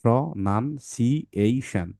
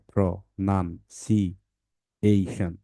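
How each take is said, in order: First: pronunciation said slowly, parts joined; slow syllables. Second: pronunciation split slowly syllable by syllable; broken into syllables. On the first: Teacher repeats the word for parents, slowly. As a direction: draw out pronunciation more evenly. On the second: Teacher shows parents how to break the word, very slowly. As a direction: stretch pronunciation out into its five parts. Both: Shown as a demonstration. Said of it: "এটা ভাঙতে হয় এভাবে".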